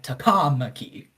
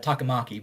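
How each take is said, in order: First: The name is said with heavy extra emphasis. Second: The name is said evenly, without extra emphasis. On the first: The speaker calls it wrong. "there's just more emphasis" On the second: The speaker calls it right. "most people with brain would say uh"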